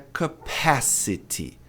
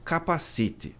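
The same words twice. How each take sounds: First: The stress falls on the second syllable. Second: The stress falls on a syllable other than the second. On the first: The speaker calls it right. "a sílaba tônica é aqui, P A" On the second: The speaker calls it wrong. "a pronúncia de capacidade não é capacity"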